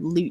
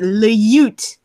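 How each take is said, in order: First: The word is said plainly, like 'loot'. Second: The word has a 'y' glide, like 'lyoot'. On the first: "the word lute" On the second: "the musical way to pronounce it"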